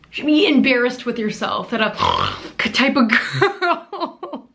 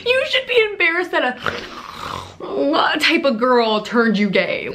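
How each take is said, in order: First: Slow words collapsing into a gasp of laughter; cracking up mid-line; laughing through it. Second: Much higher, slow and pointed; composed retake. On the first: Mocking Lundy's fans, breaking into laughter. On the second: Retaking the line to the fans, slow and pointed. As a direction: spell it out slowly, stressing "be". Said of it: "redo after laughing". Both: Real, not acted.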